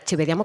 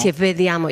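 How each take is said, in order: First: Vediamo starts with a b sound. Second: Vediamo starts with a v sound. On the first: The speaker calls it wrong. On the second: The speaker calls it right.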